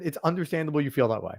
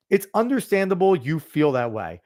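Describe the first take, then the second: First: A condescending, softer It's understandable you feel that way. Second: Said in the usual way. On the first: Retold or imitated. Mocking someone who brushes off a partner's feelings, condescending. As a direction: talk down to them, quietly. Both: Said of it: "That's condescending".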